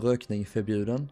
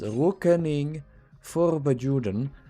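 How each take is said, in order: First: The phrase is said with Swedish pronunciation. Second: The phrase is said with anglicized pronunciation. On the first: The speaker calls it right. "it's pronounced uh" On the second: The speaker calls it wrong. "he can't pronounce it, so he says"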